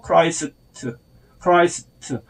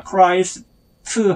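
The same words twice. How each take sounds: First: 크라이스트 with a light, weak 트; weak final 트 in 크라이스트. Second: 크라이스트 with the last 트 fully voiced; the mistaken 크라이스트, ending on a full 트; strong final 트 in 크라이스트. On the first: Teacher modelling for learners, weak final 트. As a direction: let the last 트 of 크라이스트 fade. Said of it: "아주 약하게 발음해야 합니다". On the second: Teacher showing learners what to avoid, full final 트. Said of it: "크라이스트 하지 말고". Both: Shown as a demonstration.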